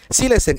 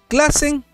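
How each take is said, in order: First: The name begins with an S sound. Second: The name begins with a K sound. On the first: The speaker calls it right. "Silesen es la pronunciación" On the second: The speaker calls it wrong. "Gracias por la corrección"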